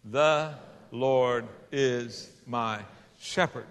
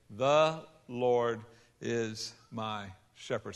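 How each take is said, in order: First: "The Lord is my" drawn out very slowly and louder, "shepherd" dropping; slow call to recite. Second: Each word set apart, slowing on "is my shepherd"; slow counted recital. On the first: Shown as a demonstration. Preacher leading the congregation in a slow, loud recital. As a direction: lead the crowd through it word by word. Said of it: "Say it with me". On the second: Retold or imitated. Grandfather teaching the boy, slow finger-counted recital. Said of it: "he would hold up his left hand and he would say".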